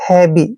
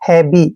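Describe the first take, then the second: The two takes are said the same way.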